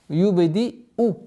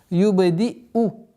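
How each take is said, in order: The two takes are said the same way.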